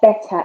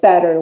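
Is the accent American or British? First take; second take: British; American. First: It is said in a British accent. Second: It is said in an American accent. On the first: "When it comes to British" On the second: "But when it comes to American"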